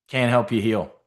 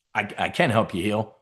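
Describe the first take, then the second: First: "Can't" said first, then set right; "Can't help you heal" as the slip; correcting himself. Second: "I can help you heal", leaning on "can"; correcting himself. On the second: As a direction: stress on "can" with a rise. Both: Shown as a demonstration.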